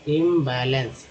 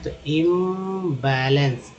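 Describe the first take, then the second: First: Said in the usual way. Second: इम्बैलेंस stretched out slowly; slow syllable demo. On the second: Shown as a demonstration. Teacher modelling इम्बैलेंस slowly. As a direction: spell out इम्बैलेंस slowly for the class. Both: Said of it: "आईएमपीएम बोलते हैं".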